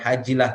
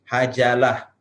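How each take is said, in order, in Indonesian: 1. Vokal i terdengar setelah j. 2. Vokal a terdengar setelah j. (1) "Bukan hajilah" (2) "tapi hajalah"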